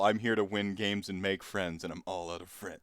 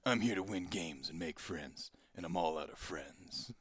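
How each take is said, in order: First: It is said in the speaker's ordinary voice. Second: It is said in a put-on action-hero voice.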